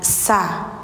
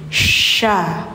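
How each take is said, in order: First: The first consonant is a plain s. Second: The first consonant is a spreading sh. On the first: The speaker calls it wrong. "jangan sa" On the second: The speaker calls it right. "sya menyebar angin"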